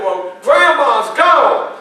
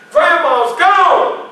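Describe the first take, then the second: First: Slow, louder, higher taunting call; brother hollering. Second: Very slow, high, loud disbelief; boy repeating the news in disbelief, slow and high; stunned child. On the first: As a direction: drag out the bad news. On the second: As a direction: echo it as it sinks in. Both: Retold or imitated.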